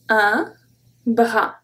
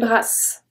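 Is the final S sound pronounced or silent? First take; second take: silent; pronounced. First: The final S sound is silent. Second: The final S sound is pronounced. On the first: The speaker calls it right. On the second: The speaker calls it wrong.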